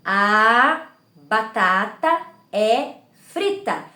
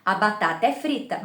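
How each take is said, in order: First: "A batata é frita" very slow, a clear pause after each word. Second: "A batata é frita" flowing with no breaks between words; run together. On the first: Teacher counting the words for viewers, slow and separated. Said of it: "aí nós vamos contando". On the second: Teacher showing parents natural connected speech, run together. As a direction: say it as one connected stream. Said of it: "eu falo de uma forma corrida". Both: Shown as a demonstration.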